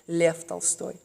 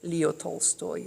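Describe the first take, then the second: First: The name is said in a Russian way. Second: The name is said in an English way.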